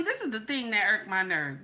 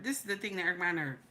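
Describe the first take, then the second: First: Said in the usual way. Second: Softer, fast aside to himself; quick muttered repeat. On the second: Real, not acted. Ranter repeating his gripe to himself, softer and fast. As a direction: drop it to a quick under-the-breath repeat.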